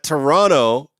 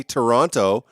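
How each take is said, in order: First: "Toronto" with the second T dropped; slurred local "Toronto", no middle T; local pronunciation. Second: "Toronto" with both Ts sounded; proper "Toronto", nt pronounced; careful pronunciation. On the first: Real, not acted. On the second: Shown as a demonstration. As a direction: say "Toronto" fully, second T crisp. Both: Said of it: "did I say that properly?".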